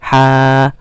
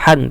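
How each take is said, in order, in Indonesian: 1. Suku kata ha ini berakhir dengan vokal panjang dua ketukan. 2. Suku kata ha ini berakhir dengan bunyi n. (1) "tapi ha, dua harokat ha" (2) "bukan han"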